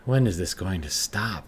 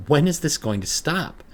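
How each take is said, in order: First: Said in the usual way. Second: Much higher and louder, rising at the end; near-hysterical plea; frantic cry to herself; desperate panic. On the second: Acted. Panic alone in bathroom.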